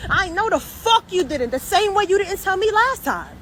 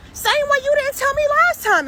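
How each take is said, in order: First: Heated, higher accusing tone; angry reproach. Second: Much higher and louder, near yelling; indignant shout. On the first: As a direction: throws the past back at them. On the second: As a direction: yells the accusation back. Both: Real, not acted. Ranting at the relative.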